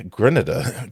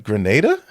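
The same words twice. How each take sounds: First: "Grenada" said GRIN-uh-duh; mimicked mispronunciation. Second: "Grenada" said gruh-NAY-duh, rising; questioning correction. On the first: Host echoing the clip's place name, "Grenada" as GRIN-uh-duh. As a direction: say "Grenada" with stress up front and a short middle, GRIN-uh-duh. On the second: Shown as a demonstration. Host querying the clip's pronunciation, "Grenada" as gruh-NAY-duh?. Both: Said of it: "I'm going to Grenada".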